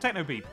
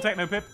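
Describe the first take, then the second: First: The last syllable has a long ee vowel. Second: The last syllable has a short i vowel. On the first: This is the name's proper pronunciation. "Pip would be pronounced Peep" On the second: This is the speaker's own preferred way. "But I don't care"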